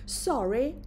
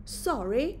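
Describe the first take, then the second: The two takes are said the same way.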